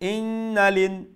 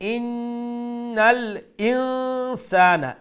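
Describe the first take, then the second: First: The l runs straight into 'in' without a catch. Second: A clear glottal catch separates 'innal' from 'insana'. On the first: The speaker calls it wrong. "তইলে হামজার উচ্চারণ হইল না" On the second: The speaker calls it right. "আমরা উচ্চারণ করা রাখবো ইন্নাল ইনসানা"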